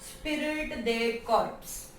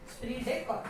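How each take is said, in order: First: The word ends with a clear final 'ps' sound. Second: The word ends without a final 'ps' sound. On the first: The speaker calls it wrong. "अगर हम ऐसे रफली पढ़े तो ऐसे होगा" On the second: The speaker calls it right. "अब इसको जो प्रोनाउंसिएशन है इसका स्प्रिट डे कॉर्प है"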